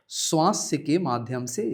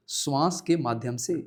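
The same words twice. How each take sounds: The two takes are said the same way.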